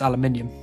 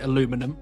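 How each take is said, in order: First: The word is said with five syllables. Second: The word is said with four syllables. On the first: "then it would be pronounced aluminium" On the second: "I say aluminum because you've spelt it aluminum"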